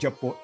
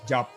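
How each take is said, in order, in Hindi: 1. शब्द के अंत में एक अतिरिक्त 'o' स्वर है। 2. शब्द का अंत व्यंजन 'p' पर होता है। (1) "it is wrong to say ਜਪੋ" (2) "ਇਟ ਇਜ਼ ਜਪ"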